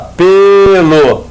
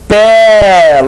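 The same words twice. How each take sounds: First: The stressed vowel is a closed e. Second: The stressed vowel is an open e. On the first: It is the noun meaning hair. "de timbre fechado" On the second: It is a form of the verb meaning to peel. "timbre aberto"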